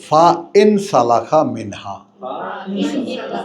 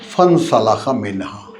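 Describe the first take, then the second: First: The first word is split into separate parts. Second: The first word is said as one joined word.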